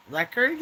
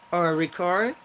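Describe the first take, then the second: First: Record as RECK-erd, stress on the first syllable; record said as a noun. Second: Record as ri-KORD, stress on the second syllable; record said as a verb. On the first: Joking to viewers about a world record, record as RECK-erd. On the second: Punning for livestream viewers, record as ri-KORD. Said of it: "world record". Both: Shown as a demonstration.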